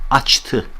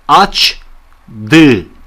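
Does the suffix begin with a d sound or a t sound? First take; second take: t; d. First: The suffix begins with a voiceless t sound. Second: The suffix begins with a voiced d sound. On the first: "D'yi T yaptım" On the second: "şöyle deseydim mesela aç dı"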